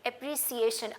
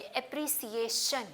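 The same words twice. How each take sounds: First: "अप्रिसिएशन" with s and shun, normal pace; demo repeated. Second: "अप्रिसिएशन" slowly, with s in the middle and shun at the end; slow demo. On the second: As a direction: draw out "अप्रिसिएशन", s then shun. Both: Shown as a demonstration. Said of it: "कैसे pronounce करूंगी".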